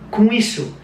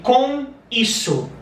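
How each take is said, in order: First: The phrase is spoken at a normal, quicker pace. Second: The phrase is spoken slowly and carefully. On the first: "in a normal pace" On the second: "If you speak slowly"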